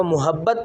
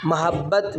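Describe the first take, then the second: First: محبت said as mu-habbat, with u on the meem; wrong pronunciation. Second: محبت said as ma-habbat, with a on the meem and a doubled b; correct pronunciation. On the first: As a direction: read محبت with a pesh: mu-habbat. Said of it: "وہ اس کو محبت پڑھ دیتے ہیں، میم کے اوپر پیش". (محبت کو میم پر پیش کے ساتھ غلط پڑھیں: مُحبت) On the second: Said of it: "جبکہ اس کا صحیح تلفظ ہے ... میم کے اوپر آپ زبر پڑھیں گے". (محبت کو میم پر زبر کے ساتھ درست پڑھیں: مَحبّت) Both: Shown as a demonstration.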